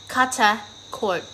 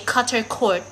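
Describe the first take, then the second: First: It is said in an Australian accent without R. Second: It is said in an American accent with R. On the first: The speaker calls it right. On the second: The speaker calls it wrong.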